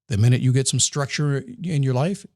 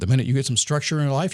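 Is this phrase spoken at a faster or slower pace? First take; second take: slower; faster. First: The phrase is spoken at a slower pace. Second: The phrase is spoken at a quicker pace.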